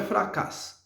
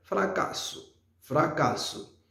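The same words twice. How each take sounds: First: "fracasse" cut off on the S, no final vowel; mistaken final-O drop. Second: "Fracasso" with the last vowel said as "oo"; "Fracasso" in three syllables, ending in soft "oo"; corrected final O. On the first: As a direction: say "fracasse" as two syllables, fra-KASS. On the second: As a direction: say "Fracasso" as fra-KA-soo. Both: Shown as a demonstration. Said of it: "Non, est fracasse".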